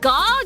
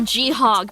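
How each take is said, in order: First: It is said as one syllable, gog. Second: It is said as two syllables, gee-hog. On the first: The speaker calls it right. "Do I pronounce it Gog" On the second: The speaker calls it wrong. "or G-Hog because it's short for groundhog? No, I'm not saying that"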